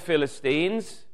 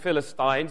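First: It is said in a non-English pronunciation. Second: It is said in an English pronunciation.

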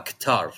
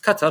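First: It is said with a long final vowel. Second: It is said short, like the word cutter. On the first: It follows the English spelling. "تلقاها كتار" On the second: It is close to the Arabic name. "كتر قريبة القطر"

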